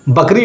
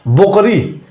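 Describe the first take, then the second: First: The first vowel sounds like 'a'. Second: The first vowel sounds like 'o'. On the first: This is the standard form found in books. The speaker calls it right. "बकरी होता है" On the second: This is how some village speakers say it. The speaker calls it wrong. "वो कहते हैं बोकरी"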